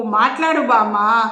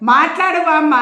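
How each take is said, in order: First: A touch of crying in the plea; tearful plea. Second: Loud shout. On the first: Jayanthi pleads with her unmoving grandmother, mildly tearful. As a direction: beg her to speak, close to tears. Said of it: "అంటూ ఏడవసాగింది". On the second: Jayanthi shouts at her collapsed grandmother, loud and alarmed. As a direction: shout higher and louder, urgent. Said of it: "బిగ్గరగా అరిచింది". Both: A narrator's reading.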